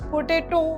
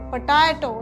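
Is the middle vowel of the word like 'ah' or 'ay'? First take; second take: ay; ah. First: The middle vowel sounds like 'ay'. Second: The middle vowel sounds like 'ah'. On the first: The speaker calls it wrong. "પોટેટો એવું ના બોલાય" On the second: The speaker calls it right. "પટાટો એવું બોલાય"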